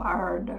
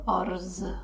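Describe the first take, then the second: First: The word ends with a D-like sound. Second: The word ends with a buzzing Z sound. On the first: The speaker calls it right. "it's more ard" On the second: The speaker calls it wrong. "It's not arz"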